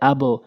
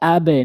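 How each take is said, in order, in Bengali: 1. শেষের b একটি o-সদৃশ প্রতিধ্বনি নিয়ে ছাড়া পায়। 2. শেষের b একটি e-সদৃশ প্রতিধ্বনি নিয়ে ছাড়া পায়। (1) "বলে আবো" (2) "বলতে হবে আবে, নিচের দিকে সাউন্ড"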